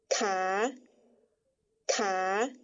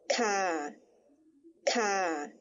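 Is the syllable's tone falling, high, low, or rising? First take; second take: rising; low. First: The syllable is said on a rising tone. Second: The syllable is said on a low tone. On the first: "第五声调呢……在不标调号的情况下念作卡卡" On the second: "加上第二声调的调号，念作咔咔"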